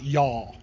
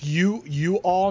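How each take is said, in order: First: It is said as one contracted syllable. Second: It is said as two separate words. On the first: The speaker calls it wrong. "not y'all" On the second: The speaker calls it right. "it's you all"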